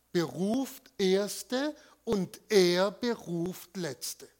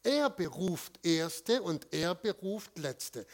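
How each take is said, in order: First: Slow, weighty Erste and Letzte with an emphatic delivery; preacher slowly stressing Erste and Letzte; slow solemn emphasis. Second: "Er" punched at the start of each half, slow; preacher stressing who calls: Er. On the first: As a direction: lay out "beruft Erste und er beruft Letzte" slowly, weighing each word. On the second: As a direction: hit the word "Er" hard both times. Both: Shown as a demonstration. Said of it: "Auf dem Er liegt die Betonung".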